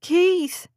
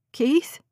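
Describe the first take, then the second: First: High, urgent call down the phone; shouted. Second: Higher, questioning call of the name; anxious, rising call into the phone; pleading. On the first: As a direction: cry out the name, pitch jumping up then falling. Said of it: "she shouted again". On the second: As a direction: ask the name with a pleading rise. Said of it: "her voice pleading". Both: A narrator's reading.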